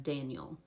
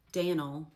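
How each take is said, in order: First: Said in the usual way. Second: "Daniel" said as "Dannel", with no y glide before the ending; "Daniel" run together as "Dan-el"; Appalachian pronunciation. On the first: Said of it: "instead of". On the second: Shown as a demonstration. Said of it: "instead of Daniel".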